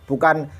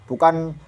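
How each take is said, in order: No difference in how they are said.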